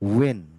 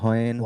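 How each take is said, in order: First: The word begins with a w sound. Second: The word begins with an h sound. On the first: The speaker calls it right. "এগুলোর উচ্চারণটা হবে" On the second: The speaker calls it wrong. "এগুলা বলেন না আপনারা"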